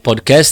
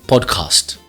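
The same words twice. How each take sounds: First: It is said with a Brazilian Portuguese pronunciation. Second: It is said with a German pronunciation. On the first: "em vez de falarem podcast" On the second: "eles falam podcast"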